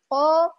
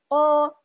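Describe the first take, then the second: The two takes are said the same way.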